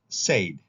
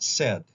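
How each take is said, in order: First: The vowel is long, rhyming with paid. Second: The vowel is short, not rhyming with paid. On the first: This is the regular form used by these speakers. "in a regular way" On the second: This is how the speaker's own group says it. "not said like we would say"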